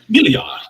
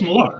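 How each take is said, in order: First: The name has a raised extra 'ee' vowel sound. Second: The name is said plainly, with no extra vowel. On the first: "you pronounce the I higher, so it makes it sound more European" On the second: "No, it's Millar"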